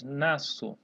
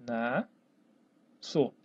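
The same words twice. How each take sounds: First: Said in the usual way. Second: "Nasço" split into two syllables with a long pause; "Nasço" dictated in separate pieces. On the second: Shown as a demonstration. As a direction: say "Nasço" as nas, pause, ço, low. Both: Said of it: "como se separa a palavra".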